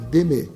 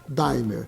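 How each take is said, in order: First: It is pronounced the French way. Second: It is pronounced the way it is spelled. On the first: It means the art of loving. "em francês significa d'aimer" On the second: Anyone in Brazil can say the name. "pronunciar a palavra como ela, são, como ela é lida"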